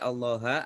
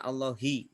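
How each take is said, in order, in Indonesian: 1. Kata ini diakhiri vokal a. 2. Kata ini diakhiri vokal i. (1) "tidak boleh Allaha" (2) "Makanya dibaca Allahi"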